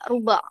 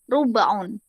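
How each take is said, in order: First: The word ends without the final 'un' sound. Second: The word ends with a final 'un' sound. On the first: "Seringkali hanya dibaca ruba" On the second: "seperempat bahasa Arabnya adalah rubaun"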